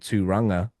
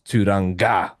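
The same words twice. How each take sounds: First: The ng is one nasal sound; the r is off. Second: The ng is split, with a hard g sound. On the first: "less jarring for me to hear"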